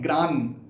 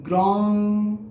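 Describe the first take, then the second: First: The word ends with an n sound. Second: The word ends with an ng sound. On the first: The speaker calls it wrong. "कुछ लोग लगाते हैं ग्रान" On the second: The speaker calls it right. "ये है ग्रॉन्ग ग्रॉन्ग"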